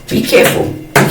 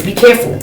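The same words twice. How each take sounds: First: "Be careful" breathed out in a whisper; whispered warning. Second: Said in the usual way. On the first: Shown as a demonstration. Warning viewers, whispered.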